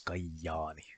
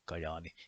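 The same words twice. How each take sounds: First: The J sound is long. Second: The J sound is short. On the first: This is how it is said in the local dialect. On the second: This is the usual pronunciation.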